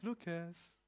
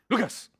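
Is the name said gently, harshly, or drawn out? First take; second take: gently; harshly. First: The name is said in a nice, gentle tone. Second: The name is said in a harsh tone.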